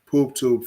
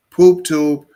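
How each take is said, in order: First: Said in the usual way. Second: Much louder, hammering it home; loud repeat. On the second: Real, not acted. Repeating it loudly to his podcast listeners. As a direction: bark it out for emphasis. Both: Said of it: "I repeat".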